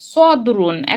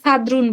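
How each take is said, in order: First: The first s sound is heavy and thick. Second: The first s sound is light and thin. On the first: It means chest. The speaker calls it right. "সদ্রুন মানে হলো আহ, বক্ষ" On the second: It has no meaning. The speaker calls it wrong. "কোনো অর্থই হবে না"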